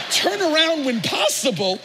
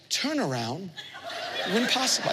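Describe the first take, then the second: First: Excited echo. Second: Hushed, gentle navigation voice; soft GPS voice. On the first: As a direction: repeat it thrilled and laughing. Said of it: "I said". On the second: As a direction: speak it softly like a kind satnav. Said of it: "she goes". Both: Retold or imitated.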